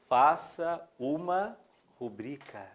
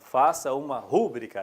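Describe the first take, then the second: First: The stress falls on the second syllable of rubrica. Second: The stress falls on the first syllable of rubrica. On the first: The speaker calls it right. "O certo é rubrica" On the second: The speaker calls it wrong. "Frequentemente, escutamos assim ... tá errado"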